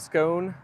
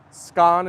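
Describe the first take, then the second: First: "scone" with a long oh; "scone" rhyming with bone. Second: "Scone" with an open ah vowel; "Scone" rhyming with gone. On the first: Streamer giving the usual version, long-oh "scone". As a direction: stretch "scone" out on a round oh. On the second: Streamer comparing versions for chat, "Scone" as skon. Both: Shown as a demonstration. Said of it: "Scone instead of scone".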